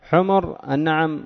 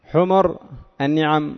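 First: The m is followed by a short u vowel. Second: The same.

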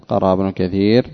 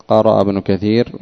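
No difference in how they are said.

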